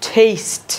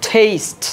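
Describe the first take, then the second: No difference in how they are said.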